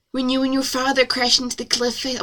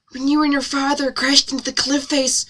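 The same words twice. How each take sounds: First: Slightly drawling character voice; Jennifer Coolidge. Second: Said in the usual way. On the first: A narrator's reading. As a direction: read with a hint of a celebrity impression. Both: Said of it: "sound like Jennifer Coolidge".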